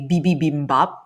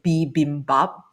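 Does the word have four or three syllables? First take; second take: four; three. First: The word has an extra 'bi' syllable. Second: The word has no extra 'bi' syllable. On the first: The speaker calls it wrong. "He would add an ad- additional B" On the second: The speaker calls it right. "pronounce it properly"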